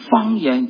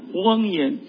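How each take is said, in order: First: The word begins with an f sound. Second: The word begins with an h sound. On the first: The speaker calls it right. "我教你方言" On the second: The speaker calls it wrong. "他说荒言"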